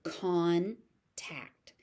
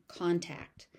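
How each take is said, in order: First: "Contact" as CON, pause, TACT; syllable by syllable. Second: Said in the usual way. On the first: Shown as a demonstration. Teacher sounding out "Contact" for learners, syllable by syllable. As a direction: split "Contact" into two separate beats.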